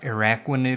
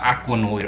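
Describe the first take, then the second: First: The name begins with an 'ar' sound. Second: The name begins with an 'ak' sound. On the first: The speaker calls it right. "I think it's pronounced Araquanid because it's like arachnid" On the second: The speaker calls it wrong. "I was actually pronouncing it wrong and actually missed out on the R"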